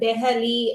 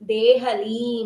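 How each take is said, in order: First: The first vowel is a short e. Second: The first vowel is a long e. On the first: The speaker calls it wrong. "ದೆಹಲಿ ಅಂತ ಓದ್ಬಾರ್ದು" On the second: The speaker calls it right. "ದೇಹಲಿ ಅಂತಾನೆ ಓದ್ಬೇಕು"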